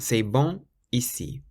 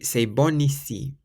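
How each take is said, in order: First: Bon ends in a nasal vowel with no n. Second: The n of bon is sounded, linking into ici. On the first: The speaker calls it wrong. "rather than" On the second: The speaker calls it right. "So you would say"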